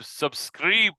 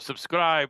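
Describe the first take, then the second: First: It is said in a Scottish accent. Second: It is said in a plain, unaccented voice.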